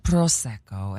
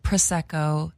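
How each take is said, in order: First: "Prosecco" said the Italian way, PROH-sek-koh, lower; Italian-style "Prosecco"; Italian pronunciation. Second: "Prosecco" said the Los Angeles way, pruh-SEK-oh; flat American "Prosecco"; LA accent pronunciation. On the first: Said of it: "they were like". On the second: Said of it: "I was like". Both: Retold or imitated.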